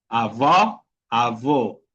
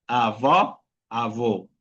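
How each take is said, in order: No difference in how they are said.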